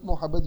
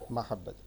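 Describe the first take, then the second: First: The first syllable is said with a rounded 'o'. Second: The first syllable is said with an open 'a'. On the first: This is the common everyday Urdu form. The speaker calls it wrong. "Urdu में हम मू मू मोहब्बत मोहब्बत use कर रहे होते हैं।" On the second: This is the original Arabic form. The speaker calls it right. "महब्बत Arabic word है।"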